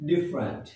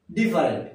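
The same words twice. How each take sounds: First: "ডিফারেন্ট" said as "DIF-rent", two syllables; correct pronunciation. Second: "ডিফারেন্ট" said as "di-fa-rent", three syllables; common mispronunciation. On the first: Teacher giving learners the proper form, "ডিফারেন্ট" as DIF-rent. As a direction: say "ডিফারেন্ট" dropping the middle vowel. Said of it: "এর উচ্চারণ হবে". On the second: Teacher showing what we usually say, "ডিফারেন্ট" as di-fa-rent. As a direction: say "ডিফারেন্ট" with a full "fa". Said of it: "কি বলে থাকি?". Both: Shown as a demonstration.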